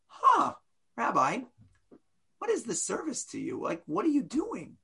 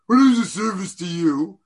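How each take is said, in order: First: Soft, genuinely puzzled asking; sincere curious question. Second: Loud, pointed rhetorical jab; rhetorical challenge. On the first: Teacher demonstrates the question read as honest curiosity. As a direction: ask gently, really wanting to know. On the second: Teacher demonstrates the question read as a sneer. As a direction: fling it at the rabbi as a challenge. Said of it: "I can read it as". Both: Shown as a demonstration.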